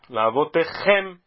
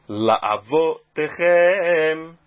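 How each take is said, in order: First: Only the last syllable 'chem' is stressed. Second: 'Chem' is stressed and 'vo' is slightly stressed too. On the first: "é uma oxítona que se lê La'avotechem" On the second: "deixando que o vo fica um pouco mais forte no começo da palavra"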